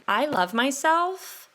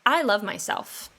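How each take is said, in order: First: "I love myself" slow with a rising end, like a question; questioning uptalk. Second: "I love myself" with a firm falling end; confident statement. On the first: Podcaster showing listeners the unsure version, rising uptalk. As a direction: make "I love myself" sound unsure, lifting high on "myself". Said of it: "when you talk like this, it almost sounds like you're asking a question".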